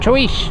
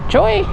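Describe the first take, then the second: First: The word ends with a 'sh' sound. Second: The word ends on a vowel sound. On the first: The speaker calls it right. "He's like, no" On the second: The speaker calls it wrong. "I said"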